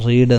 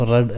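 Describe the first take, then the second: First: റീഡ് with long ee, the wrong past form; റീഡ് long vowel; long ee read. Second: റെഡ് short e, not റീഡ്; read as red. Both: Shown as a demonstration. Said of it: "റീഡ് എന്ന് pronounce ചെയ്യരുത്".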